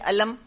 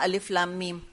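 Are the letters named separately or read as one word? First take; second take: one word; separately. First: The letters are run together into one word. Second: Each letter is named separately as three words. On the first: The speaker calls it wrong. "कोई नहीं पढ़ता इस तरह से" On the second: The speaker calls it right. "सबने पढ़ा"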